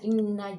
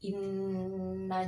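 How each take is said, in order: First: The doubled n is clipped short. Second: The doubled n is held for two beats. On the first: The speaker calls it wrong. "sudah dilebur tapi tidak ditahan" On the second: The speaker calls it right. "Dilebur dan dita, ditahan dua harokat"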